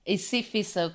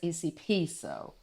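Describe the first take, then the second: First: The middle consonant is an F sound. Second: The middle consonant is a P sound.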